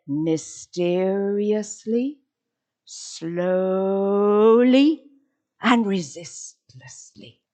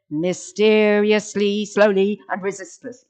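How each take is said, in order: First: "mysteriously", "slowly" drawn out with rising ends, "resistlessly" falling; slowly, each separate. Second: Loud level run-through, "slowly" not stretched; too quick "slowly". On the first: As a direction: stretch "slowly" long and pause between adverbs. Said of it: "You have to say". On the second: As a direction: run "mysteriously, slowly, and resistless" together without pauses. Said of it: "You can't say". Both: Shown as a demonstration.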